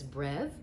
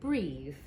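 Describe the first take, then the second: First: The vowel is short, as in 'bet'. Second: The vowel is long, as in 'bee'. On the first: This is how the root sounds in 'brevity'. "It could come out as brev" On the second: This is how the root sounds in 'abbreviate'. "it could come out as breathe"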